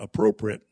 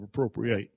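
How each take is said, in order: First: The final syllable is a weak 'it' sound. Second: The final syllable is a full 'ate' sound. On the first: It means suitable or fitting. "I started talking about appropriate" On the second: It means to seize or take possession of something. "to appropriate something, it simply means that we seize it"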